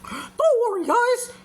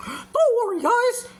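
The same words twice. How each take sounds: First: It is said in a put-on cartoon character voice. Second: The same.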